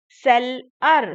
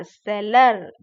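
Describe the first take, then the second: First: seller loud and slow, as sell, ar; broken into syllables. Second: seller joined into one loud word; syllables blended. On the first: Teacher breaking a word for children, loud separated syllables in seller. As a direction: split seller into two punched beats. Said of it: "break करके बोला गया है". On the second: Teacher putting the word back together, loud blended seller. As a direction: run seller together without the gap. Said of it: "fast बोलते जाएंगे". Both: Shown as a demonstration.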